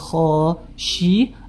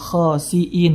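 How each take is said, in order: First: The middle consonant is an sh sound. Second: The middle consonant is a plain s sound. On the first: The speaker calls it wrong. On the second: The speaker calls it right.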